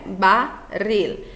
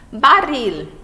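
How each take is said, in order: First: Said in the usual way. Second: Barril said louder, rolled double r stressed; model word. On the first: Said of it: "ficarão na mesma sílaba". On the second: Shown as a demonstration. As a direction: announce Barril loudly, clear double r. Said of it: "o encontro do doble R". (Barril em voz alta, com o r duplo marcado)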